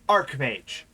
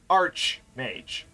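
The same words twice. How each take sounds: First: The first part sounds like ark, with a k. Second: The first part sounds like arch, with ch. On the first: It names a rank or position. The speaker calls it right. "it's actually archmage" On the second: It refers to the physical structure. The speaker calls it wrong. "not archmage ... it is not correct"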